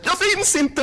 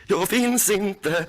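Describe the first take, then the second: First: High, loud panicked chant; the mantra cracking into panic; a frightened high cry of the mantra. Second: Slow mantra. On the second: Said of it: "Gå inom dig". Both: Real, not acted.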